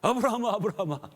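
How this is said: The calls sound urgent and hurried.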